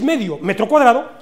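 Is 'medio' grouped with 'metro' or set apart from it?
set apart. A break separates 'medio' from 'metro cuadrado'. Half of one square meter, 5,000 square centimeters. "Atentos a mi entonación"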